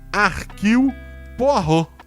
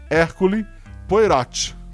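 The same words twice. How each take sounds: First: The name is pronounced the French way. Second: The name is pronounced as Portuguese spelling reads. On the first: The speaker calls it right. "algo como" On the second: The speaker calls it wrong. "assim como se lido no português"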